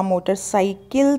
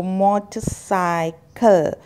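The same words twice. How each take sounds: First: मोटरसाइकिल with sounded R and "kil", rising; wrong pronunciation. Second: मोटरसाइकिल slowly as MO-tuh-sai-kul; correct pronunciation. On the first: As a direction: show मोटरसाइकिल ending in slow "साइ-किल". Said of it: "मोटरसाइकिल नहीं बोलना है". (मोटरसाइकिल का गलत उच्चारण, किल के साथ) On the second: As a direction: break up मोटरसाइकिल, no R, "कल" ending. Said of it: "कल बोलना है यहाँ पे". (मोटरसाइकिल का सही उच्चारण, धीरे-धीरे) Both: Shown as a demonstration.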